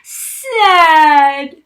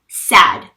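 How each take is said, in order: First: The word is drawn out and dramatized. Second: The word is spoken at a normal pace. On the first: The speaker calls it wrong. "dramatizing them to make me understand them" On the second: The speaker calls it right. "But now"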